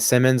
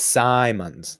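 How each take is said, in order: First: The first syllable has a short vowel, like 'sim'. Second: The first syllable has a long vowel, like 'sigh'. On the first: The speaker calls it wrong. "I said Simmons earlier today, and then I corrected myself" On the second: The speaker calls it right. "It's Simons, like Simon says"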